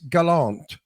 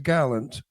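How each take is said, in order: First: It is pronounced the French way. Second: It is pronounced the English way. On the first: "in French it's galant" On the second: "but in English it's gallant"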